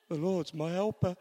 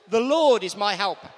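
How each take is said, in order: First: Said in the usual way. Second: Loud confident declaration. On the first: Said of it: "We say it with confidence". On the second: Shown as a demonstration. Preacher urging the congregation to speak up, loud confident declaration. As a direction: ring out The Lord is my helper, loud and sure. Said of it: "say it with confidence".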